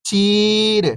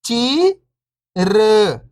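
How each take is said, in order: First: Whole word, level then falling at the end; syllables blended. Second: First syllable lifting, pause, second falling. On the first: Teacher showing beginners the joined word, syllables blended. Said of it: "इनको आपस में लाके पढ़ना है". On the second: Teacher breaking a word down for beginning readers, syllable by syllable. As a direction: sound out each syllable alone, long and separated. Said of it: "एक अक्षर का उच्चारण करके". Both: Shown as a demonstration.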